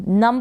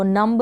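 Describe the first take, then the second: First: नम ending on m, no b; नम with the final b left silent. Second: नम्ब with an audible b at the end; wrong sounded B. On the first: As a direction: say नम and stop on the m. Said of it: "नम पढ़ेंगे इसको". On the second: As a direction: say नम्ब, releasing a b after the m. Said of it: "नम्ब नहीं पढ़ेंगे". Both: Shown as a demonstration.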